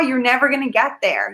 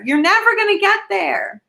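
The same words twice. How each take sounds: First: Said in the usual way. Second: Higher repeat. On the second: Real, not acted.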